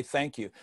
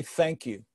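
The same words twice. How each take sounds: First: A very soft "Thank you." that falls away; quiet thank you. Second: A short quiet "Thank you." with a falling end; soft plain thank you. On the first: Walking out on stage, a hushed thank you. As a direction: barely voice "Thank you." then stop. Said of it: "you say". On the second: Speaker greeting the audience from the stage, soft thank you. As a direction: say "Thank you." softly and let it drop. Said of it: "you wanna say". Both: Shown as a demonstration.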